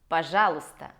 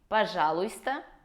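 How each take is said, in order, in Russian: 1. Звук 'y' перед 'sta' пропускается. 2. Звук 'y' перед 'sta' произносится. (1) "а говорим «пожалуйста»" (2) "мы не говорим «пожалуйста»"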